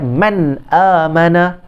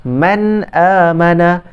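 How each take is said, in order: Both takes have the same delivery.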